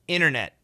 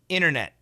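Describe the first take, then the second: First: The first T drops and the second is stopped. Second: The first T drops and the second is stopped.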